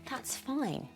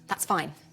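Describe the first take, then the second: First: It is said in a warm, friendly tone. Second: It is said in a flat, clipped tone. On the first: It really is fine. "If it is said warmly" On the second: It is not fine at all. "If it is said flat or clipped"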